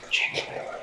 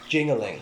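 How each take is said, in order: First: It is said in a loud whisper. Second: It is said in a normal voice.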